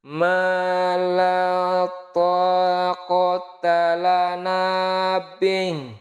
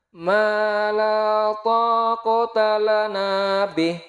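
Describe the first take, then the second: First: It is recited at the slowest tempo. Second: It is recited at a somewhat slower tempo. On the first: "Coba kita turunkan lagi temponya lebih lambat dikit" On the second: "kita turunkan temponya"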